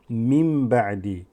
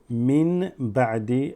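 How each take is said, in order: First: The first word ends with an m sound. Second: The first word ends with an n sound. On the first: The speaker calls it right. "mim ba'di flows easier" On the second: The speaker calls it wrong. "as opposed to mim"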